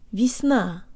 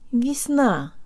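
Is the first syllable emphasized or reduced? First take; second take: reduced; reduced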